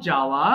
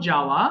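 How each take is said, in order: The two takes are said the same way.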